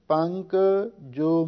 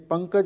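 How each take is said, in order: First: The final syllable is set slightly apart. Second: The final syllable is joined into one word. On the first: The word means mud, followed by a separate word. The speaker calls it right. "ਇਹ ਜੱਜੇ ਨੂੰ ਥੋੜ੍ਹਾ ਜਿਹਾ ਵੱਖਰਾ ਕਰਕੇ ਉਚਾਰਨ ਕਰਨਾ ਹੈ" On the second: The word means the lotus flower. The speaker calls it wrong. "ਜੇ ਪੰਕਜ ਇਕੱਠਾ ਪਾਠ ਕਰੀਏ"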